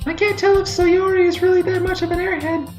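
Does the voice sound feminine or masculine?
feminine. It is said in a non-masculine voice. The speaker calls it wrong. "why am I saying it like that?"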